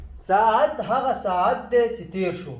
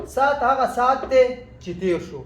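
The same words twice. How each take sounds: First: ساعت said with the Arabic ع, saːʕat, as it is written; written-form ساعت with a clear ع; spelling pronunciation. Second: ساعت said as سات, the ع dropped, short sat; everyday Pashto سات without ع; Pashto spoken pronunciation. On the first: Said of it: "هكذا نحن نقول البشتون". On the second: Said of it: "عين لا نقول هنا". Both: Shown as a demonstration.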